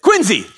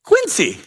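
First: Higher, punched Boston "Quincy", said QUIN-zee; mock Boston correction. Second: Much higher "Quincy" with a crisp s; Quincy his own way. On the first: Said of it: "I felt like they were yelling at me". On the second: Retold or imitated. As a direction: insist on QUIN-see for "Quincy", pitched way up. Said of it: "And I said ... and they said".

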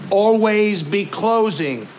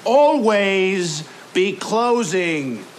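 First: Always stressed, slow and weighty; slow emphatic. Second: Always drawn out even slower; slower still. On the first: Boss drilling his salesmen, slow emphatic. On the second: Boss repeating the motto to salesmen, even slower. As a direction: stretch always, each word weighted. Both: Shown as a demonstration.

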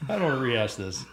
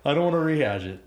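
First: Said in the usual way. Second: Louder, higher "I don't wanna", punched from the start; emphatic repeat. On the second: Real, not acted. Co-host protesting old grievances to partner, louder emphatic insistence. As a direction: hit "I don't wanna" hard and high.

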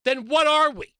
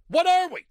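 First: Raised, loud and high; loud outburst. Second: Higher, louder and hammered; exasperated shout; louder repeat. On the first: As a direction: demand it of them loudly. Host rants, rhetorical outburst. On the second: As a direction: shout the question back even harder. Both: Real, not acted.

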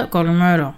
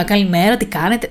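First: Reserved good morning with a falling end; shy minimal greeting. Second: Chatty good morning with a lifted end; mock the outgoing hello that invites small talk; sociable greeting, imitated. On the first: Retold or imitated. Shy newcomer greeting coworkers without starting conversation, reserved. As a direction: imitate a shy, closed-off hello. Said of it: "Ντρεπόμουν. Οπότε ήμουνα, μ, έλεγα". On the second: The greeting she never gave coworkers, mock sociable. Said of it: "Δεν έλεγα".

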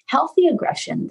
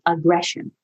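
First: Healthy lifted high and set apart from aggression; stress on Healthy. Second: Said in the usual way. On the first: Shown as a demonstration. Therapist correcting herself, landing hard on Healthy. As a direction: lift the word Healthy well above the rest. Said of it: "health, aggression". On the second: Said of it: "Healthy aggression, though".

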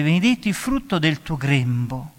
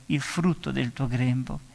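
First: Said in the usual way. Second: Hushed, slow repeat; soft slow echo. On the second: Real, not acted. Preacher echoing Elisabetta's blessing softly to savour it. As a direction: linger softly on il frutto del tuo grembo.

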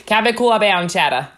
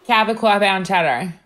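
First: Put-on claw said broad and open in a Long Island accent; hammed-up Long Island accent again. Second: Put-on Cabot said with a thick Long Island accent. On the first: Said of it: "You say claw bound". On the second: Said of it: "Can you say that in your Long Island accent?".

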